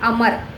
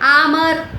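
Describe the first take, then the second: First: The first vowel is short. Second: The first vowel is long. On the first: The speaker calls it right. "यानी अमर" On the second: The speaker calls it wrong. "Double A का वहाँ पे प्रयोग जो है अगर हम करेंगे तो क्या होगा, रॉन्ग होगा"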